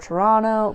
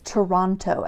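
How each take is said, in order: First: The city name is said the way locals say it. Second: The city name is said the way outsiders say it. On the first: The speaker is really from the city. The speaker calls it right. "nobody from Toronto says Toronto. They say Toronto" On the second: The speaker is not really from the city. The speaker calls it wrong. "he always says Toronto. Everybody says Toronto"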